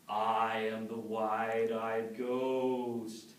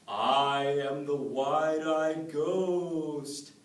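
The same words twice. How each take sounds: First: Slow, drawn-out ghostly moan; haunt him, stretch the words; spooky ghost voice. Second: Slow, drawn-out, louder ghostly moan; spooky ghost voice. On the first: Ghost creeping up behind Noah, slow spooky moan. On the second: Ghost haunting the woman at the milking stool, slow spooky moan. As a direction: stretch every word like a haunting ghost. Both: Acted. The same voice comes and says.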